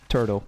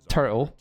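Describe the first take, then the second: First: It is said in an American accent. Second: It is said in a British accent.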